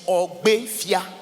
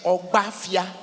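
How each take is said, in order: First: The second syllable has an 'e' vowel. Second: The second syllable has an 'a' vowel. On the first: "The real pronunciation is Ogbefia" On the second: "The very first word that was mentioned in this song is Ogbafia"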